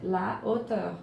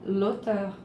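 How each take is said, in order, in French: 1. L'article complet reste devant le nom. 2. L'article est élidé et lié au nom. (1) "C'est la hauteur. ... c'est un H aspiré" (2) "on ne va pas dire l'auteur"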